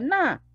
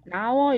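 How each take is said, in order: First: The first word is cut off before the second. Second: The two words are run together without a break. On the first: The speaker calls it right. "이걸 끊어주는 거예요" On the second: The speaker calls it wrong. "이렇게 흘리지 마시고요"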